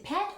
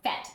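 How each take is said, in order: First: The word begins with a P sound. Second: The word begins with an F sound. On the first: This is how people in Cambodia say it. "I bet they say pet over there" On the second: This is how people here say it. "here we would say an F sound"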